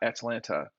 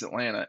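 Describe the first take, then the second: First: Both t sounds are pronounced hard. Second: The second t is dropped and soft. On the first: The speaker calls it wrong. "It's not Atlanta. Oh God" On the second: The speaker calls it right. "they know it's Atlanta"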